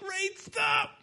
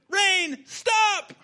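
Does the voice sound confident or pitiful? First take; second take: pitiful; confident. First: It is said in a pitiful, whiny voice. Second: It is said in a confident, commanding voice.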